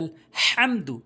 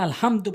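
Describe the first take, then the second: First: The h is harsh, from mid-throat. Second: The h is a plain, light h. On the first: The speaker calls it right. "বড় হা হলকের মাঝখান থেকে উচ্চারণ করতে হবে।" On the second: The speaker calls it wrong. "ওখানে আলহামদু বললে তো নামাজি হবে না"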